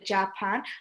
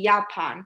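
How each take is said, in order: First: The word starts with a J sound. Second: The word starts with a Y sound. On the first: The speaker calls it wrong. "আমরা কিন্তু জার্মানে বলি না জাপান" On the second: The speaker calls it right. "আমরা বলি ইয়াপান"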